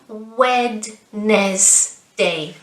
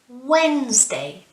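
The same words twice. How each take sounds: First: The d sound in the middle is pronounced. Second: The d sound in the middle is silent. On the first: The speaker calls it wrong. "It's not Wednesday. No" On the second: The speaker calls it right. "it's almost as if we don't pronounce the d"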